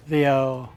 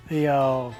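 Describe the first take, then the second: No difference in how they are said.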